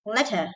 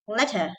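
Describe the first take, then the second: First: The t sound is short and quick. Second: The same.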